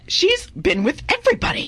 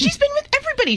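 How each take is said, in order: First: High, gossipy dish; scandalized gossip. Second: Very high, insistent gossip; shrieking gossip. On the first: Gossiping about Minnie. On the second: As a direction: insist on the scandal, higher. Repeats gossip louder higher. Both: Acted.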